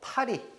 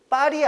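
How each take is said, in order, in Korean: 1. 첫 자음은 예사소리예요. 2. 첫 자음은 된소리예요.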